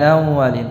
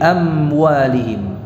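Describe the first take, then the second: First: The m before w is blurred and nasal. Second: The m before w is closed clearly. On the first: The speaker calls it wrong. "ini contoh kesalahan, ya. Bukan amwalihim" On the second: The speaker calls it right. "tapi amwalihim"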